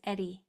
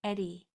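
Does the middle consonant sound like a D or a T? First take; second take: D; D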